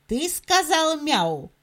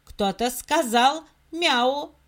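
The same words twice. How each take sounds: First: Stern. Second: Said in the usual way. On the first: Acted. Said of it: "строго спросил".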